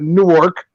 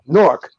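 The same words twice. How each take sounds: First: The name is pronounced just as it is spelled. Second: The name is pronounced the way locals say it. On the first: The speaker calls it wrong. "it's not Newark" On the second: The speaker calls it right. "that's the way we say it"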